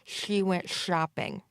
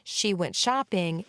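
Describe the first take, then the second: First: The sh sounds are slushy, air escaping sideways. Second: The sh sounds are crisp and clear. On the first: The speaker calls it wrong. "a slurpy, slushy type of sound" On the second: The speaker calls it right. "instead of"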